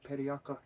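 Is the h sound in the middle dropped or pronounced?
dropped. The h sound in the middle is dropped. This is how the local west coast people say it. "it's periaka. Like they don't do the H"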